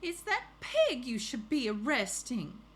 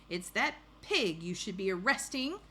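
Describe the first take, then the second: First: Higher, louder Southern complaint; storybook neighbor with a Southern accent. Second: Said in the usual way. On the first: Acted. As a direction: put on a Southern accent to object. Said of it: "with my southern accent, so let's do it again". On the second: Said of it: "didn't say it with my southern accent".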